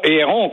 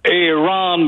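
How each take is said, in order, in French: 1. Le nom a une prononciation française. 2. Le nom a une prononciation anglaise. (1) "et non Aaron, comme on le prononce" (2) "because we are in Dorval"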